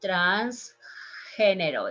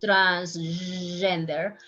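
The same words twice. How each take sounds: First: Transgénero with a soft Spanish g like h, slow; Spanish pronunciation. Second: Transgender said the English way, slow; English pronunciation. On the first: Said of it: "It's a little bit softer there". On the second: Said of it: "How is in English?". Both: Shown as a demonstration.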